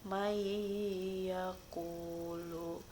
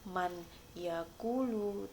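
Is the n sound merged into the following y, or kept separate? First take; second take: merged; kept. First: The n merges into a nasal y sound. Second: The n is pronounced clearly before the y. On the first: The speaker calls it right. "nun matinya langsung dimasukkan ke dalam ya" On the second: The speaker calls it wrong. "bukan man yaqulu"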